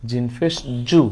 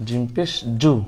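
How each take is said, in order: Both takes have the same delivery.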